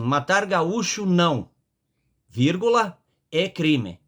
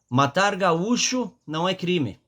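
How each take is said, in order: First: There is a break after não. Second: It is said without a pause after não.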